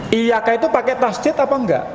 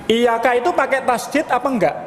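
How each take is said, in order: Both takes have the same delivery.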